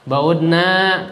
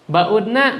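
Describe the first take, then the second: First: The final vowel is long. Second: The final vowel is short. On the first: We women have gone far away. "Kalau panjang kami" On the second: The women have gone far away. "Nanya pendek, jangan panjang"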